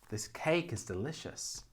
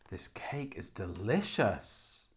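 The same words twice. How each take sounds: First: The stress is on the word cake. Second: The stress is on the word delicious.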